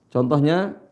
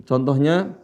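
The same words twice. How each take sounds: Both takes have the same delivery.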